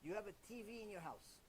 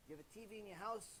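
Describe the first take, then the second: First: Said in the usual way. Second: "You have a T V in your house?" with a rising question tune on house; asking question. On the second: Shown as a demonstration. Rabbi asking the wife, rising on "house". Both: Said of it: "What's the first question you ask?".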